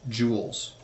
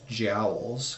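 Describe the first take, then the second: First: The vowel sounds like 'oo' in 'cool'. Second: The vowel sounds like 'ow' in 'cow'. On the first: The speaker calls it right. "But it is, in fact" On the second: The speaker calls it wrong. "I mispronounced this as"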